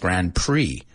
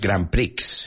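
First: The final x is silent. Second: The final x is pronounced. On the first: The speaker calls it right. "En inglés decimos Grand Prix. La X es muda" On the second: The speaker calls it wrong. "No es Grand Prix"

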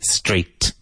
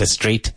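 First: The word starts directly with the s sound. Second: An extra vowel sound comes before the s. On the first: The speaker calls it right. "Be very careful. S-T" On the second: The speaker calls it wrong. "Not a straight"

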